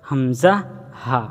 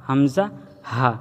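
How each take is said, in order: Both takes have the same delivery.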